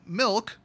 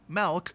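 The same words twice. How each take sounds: First: It is said in a standard accent. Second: It is said in a Wisconsin accent.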